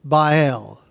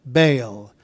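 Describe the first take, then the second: First: "Baal" said slowly as two syllables, "BY-el". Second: "Baal" said as one syllable, like "bale". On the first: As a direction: draw "Baal" out into "BY-el". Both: Shown as a demonstration. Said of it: "coming across these words".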